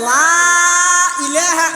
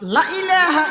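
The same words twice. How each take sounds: First: The vowel in 'la' is drawn out long. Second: The vowel in 'la' is kept short. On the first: There is no god except the one God. The speaker calls it right. "যদি টানিয়ে রে ভরে" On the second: There are other gods besides the one God. The speaker calls it wrong. "লাইবে ন টানে"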